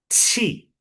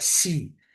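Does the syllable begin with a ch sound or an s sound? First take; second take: ch sound; s sound. First: The syllable begins with a ch sound. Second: The syllable begins with an s sound. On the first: The speaker calls it right. "Jadi suaranya itu C" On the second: The speaker calls it wrong. "bukan S ya. Kadang beberapa orang bacanya ngomongnya pakai S kayak si"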